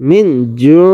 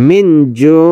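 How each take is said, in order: Both takes have the same delivery.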